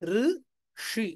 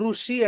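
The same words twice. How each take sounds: First: It starts with a soft vocalic r sound. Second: It starts with a clear 'ru' consonant syllable. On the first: It means a sage or monk. "చాలా మృదువైనటువంటి వట్రసుడితో ఉన్న అచ్చు అక్షరంతో" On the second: It means seized by anger. "నేను రేఫని పలికాను"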